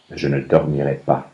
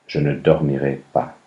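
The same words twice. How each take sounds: The two takes are said the same way.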